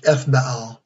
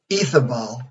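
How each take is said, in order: First: Ethbaal with no vowel after "Eth"; alternate pronunciation. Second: Ethabal said as one name with a short middle "a"; first pronunciation. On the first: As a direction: say Ethbaal as Eth-BAAL, drawing on the name Baal. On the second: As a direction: say Ethabal in three syllables, Eth-a-bal. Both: Shown as a demonstration. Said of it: "also pronounced Ethbaal".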